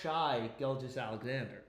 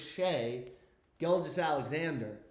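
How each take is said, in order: First: The first name rhymes with sky. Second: The first name rhymes with day. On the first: The speaker calls it wrong. "It's not Shy Gilgis Alexander" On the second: The speaker calls it right. "It's Shay Gilgis Alexander"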